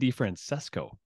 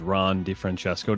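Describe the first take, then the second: First: The c is not pronounced as ch. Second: The c is pronounced as ch. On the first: "they say DiFrancesco" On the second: "The good Italian pronunciation"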